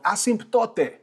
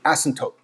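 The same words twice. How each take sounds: First: The word is sounded out as it is spelled. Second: The word is said in its usual spoken form. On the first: The speaker calls it wrong. "spelled asymptote, but we're not gonna read it like that" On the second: The speaker calls it right. "it's really asymptote"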